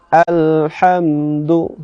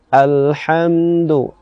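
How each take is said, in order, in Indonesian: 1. Vokal pertama terbuka dan ringan. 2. Vokal pertama terbuka dan ringan.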